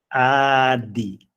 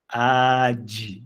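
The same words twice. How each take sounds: First: The d is a clean stop without friction. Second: The d is released with a hissing friction. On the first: The speaker calls it right. "a palavra é adi" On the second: The speaker calls it wrong. "com aquele cuidado de não falar adi, adi. Não pode ter essa fricção"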